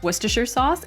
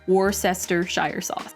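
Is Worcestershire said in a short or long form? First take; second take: short; long. First: Worcestershire is said in a short, clipped form. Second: Worcestershire is said in a long, spelled-out form. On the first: The speaker calls it right. "it's pronounced" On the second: The speaker calls it wrong. "and not"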